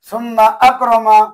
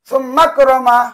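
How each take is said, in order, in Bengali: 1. হামজা শব্দের মাঝে স্পষ্ট করে রাখা হয়। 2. হামজা বাদ যায়, শব্দ দুটো মিলে যায়। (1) "বরং ভিন্ন করে উচ্চারণ করতে হবে" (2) "এভাবে বলা যাবে না"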